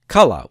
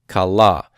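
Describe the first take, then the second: First: The stress is on the first syllable. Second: The stress is on the last syllable. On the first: It is the perfect third feminine singular. "with the accent on the first syllable" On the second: It is the feminine singular participle. "the participle kala takes the accent on the common say"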